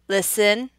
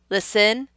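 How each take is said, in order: No difference in how they are said.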